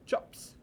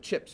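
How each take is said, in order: First: The vowel is centralised, like New Zealand speech. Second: The vowel is a short American 'i' sound. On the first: "In New Zealand, the I for chips is chops" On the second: "we eat a bag of chips"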